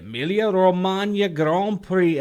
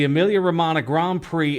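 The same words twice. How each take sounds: First: The name is said with Italian pronunciation. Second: The name is said with English pronunciation. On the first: "that's the Italian pronunciation" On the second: "for those of us like Andy who can't pronounce shit when it comes to foreign stuff"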